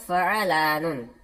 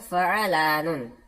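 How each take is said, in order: First: The 'ain is followed by a short 'a' vowel. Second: The 'ain is followed by a short 'a' vowel.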